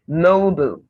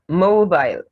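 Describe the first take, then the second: First: It is said with an American pronunciation. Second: It is said with a British pronunciation.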